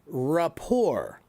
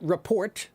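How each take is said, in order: First: The final T is silent. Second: The final T is pronounced. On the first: The speaker calls it right. "The T is not pronounced" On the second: The speaker calls it wrong. "That word is not report"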